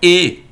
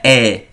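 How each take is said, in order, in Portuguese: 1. A vogal é um som de e fechado. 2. A vogal é um som de e aberto. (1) "na palavra ver, o som é E" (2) "não é E"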